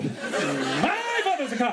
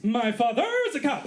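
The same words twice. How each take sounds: First: Very slow, laughing rehearsal; slower line reading. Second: Slow, deliberate rehearsal read; line reading. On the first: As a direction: stretch it out, savouring each word. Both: Pretend. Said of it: "I'm doing line readings".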